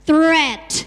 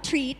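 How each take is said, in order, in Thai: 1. คำนี้ขึ้นต้นด้วยเสียง 'th' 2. คำนี้ขึ้นต้นด้วยเสียง 't' ธรรมดา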